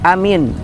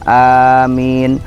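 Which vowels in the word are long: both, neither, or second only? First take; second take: neither; both. First: Both vowels are kept short. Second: Both vowels are drawn out long. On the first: Trustworthy. "A-nya dua-duanya pendek, min-nya juga pendek" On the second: Grant our request. "A-nya panjang, min-nya panjang"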